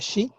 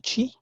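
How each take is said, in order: First: The syllable begins with a soft sh sound. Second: The syllable begins with a hard ch sound. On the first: The speaker calls it right. "aquí se pronuncia Shi" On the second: The speaker calls it wrong. "no Chi"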